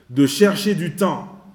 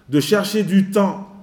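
Both takes have the same delivery.

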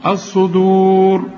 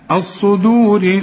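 First: Slow chanted الصدور, long u, thick r; heavy r at stop. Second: Slow الصدور ending in thin "ri"; light linked r. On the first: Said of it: "عند الوقف". (تفخيم راء الصدور عند الوقف) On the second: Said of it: "رققها". (ترقيق راء الصدور عند الوصل) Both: Shown as a demonstration.

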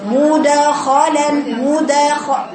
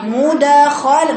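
First: Slow مدخلا with a vowel shading on the د; wrong qalqala. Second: Very slow and louder مدخلا, the د bounced clean with no vowel; correct qalqala. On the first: Teacher imitates the common mistake, drawn out. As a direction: drag مدخلا so the د carries a faint damma. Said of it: "لا، خطأ". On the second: Teacher stresses the right reading to students. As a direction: hit the د in مدخلا with a crisp vowelless pop. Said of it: "وليست مد". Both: Shown as a demonstration.

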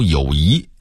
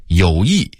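First: 友谊 as yǒuyí, 谊 rising; rising tone on 谊 in 友谊, not falling; Beijing-style 友谊 ending upward; Beijing dialect reading. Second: Said in the usual way. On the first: Shown as a demonstration. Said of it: "北京话读". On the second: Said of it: "北京话读友谊".

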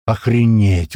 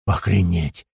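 First: Punchy shocked outburst; stunned exclamation. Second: Low, dumbstruck murmur; barely manage to get it out; stunned utterance. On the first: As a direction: blurt it out in amazement. Shock at the huge blow. (ошеломлённое восклицание) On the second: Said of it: "только смог вымолвить Большой". (ошеломлённо, низким голосом) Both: A narrator's reading.

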